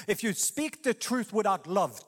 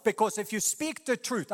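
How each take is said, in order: First: "truth without love" spelled out slowly, each word weighted; slow emphasis on "without love". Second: Said in the usual way. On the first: Shown as a demonstration. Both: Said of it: "I want you to see".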